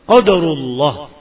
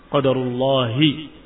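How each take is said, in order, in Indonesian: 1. Kata ini berakhir dengan konsonan h. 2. Kata ini berakhir dengan tambahan vokal i. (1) "daripada qadarullah" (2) "Dan itu yang lebih tepat"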